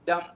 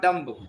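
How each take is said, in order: First: The final B is silent. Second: The final B is pronounced. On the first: The speaker calls it right. "B is silent" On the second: The speaker calls it wrong. "not dumb"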